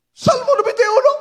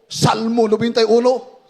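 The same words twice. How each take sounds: First: Shouted. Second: Said in the usual way. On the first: Retold or imitated. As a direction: shout the psalm as a command. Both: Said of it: "Isigaw mo".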